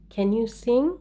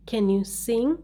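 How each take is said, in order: Both takes have the same delivery.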